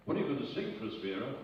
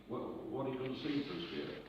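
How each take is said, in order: First: Said in the usual way. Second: Mild mock panic, stumbling on the first word; panicking. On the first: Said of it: "And now he's panicking". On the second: Host asking an unprepared guest for her song, mildly panicking. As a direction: imitate a host starting to flounder, with a small stammer. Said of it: "now he's panicking".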